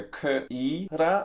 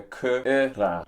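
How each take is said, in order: First: "K-I-ra" with a long EE in the middle; E vowel. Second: "K-I-ra" with a short, lax middle vowel; alternative vowel. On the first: Weighing up the film's pronunciation, E vowel. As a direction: sound out "K-I-ra" as kuh-EE-ra. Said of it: "more like an E". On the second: Weighing up the film's pronunciation, alternative vowel. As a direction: sound out "K-I-ra" without the long EE. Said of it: "or like a K-I-ra". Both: Shown as a demonstration.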